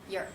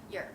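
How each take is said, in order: First: The vowel is reduced and said very quickly. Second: The vowel is reduced and said very quickly.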